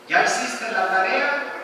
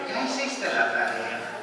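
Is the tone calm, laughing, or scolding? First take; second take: calm; laughing. First: It is said in a calm, even tone. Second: It is said while laughing. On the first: A neutral question is being asked. "le estoy hablando de manera racional" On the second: It is meant as a joke. "me estoy riendo y él lo va a tomar como una broma"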